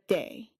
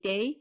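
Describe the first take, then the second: First: The d is said crisply, more percussive. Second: The d is said softly, less percussive. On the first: "instead of" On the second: "gives you a less percussive sound. You get de"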